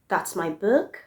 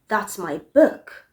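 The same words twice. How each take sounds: First: The pitch rises at the end. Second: The pitch falls at the end. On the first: The speaker is questioning whether the book is theirs. "if you say that same sentence with rising intonation. It will go this way" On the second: The speaker is sure the book is theirs. "said with the falling intonation"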